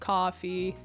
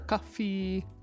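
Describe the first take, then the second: First: The second vowel has its normal short length. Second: The second vowel is drawn out and long. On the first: The speaker calls it right. "it still sounds like the word coffee" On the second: The speaker calls it wrong. "if we extend that second vowel and we make it longer"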